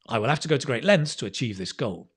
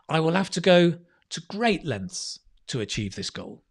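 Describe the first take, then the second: First: It is said quickly in one unbroken run. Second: It is said in short chunks separated by pauses. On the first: "as a native speaker, I say it very quickly" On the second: "So you could phrase it like that, right? ... And then each one is a chunk"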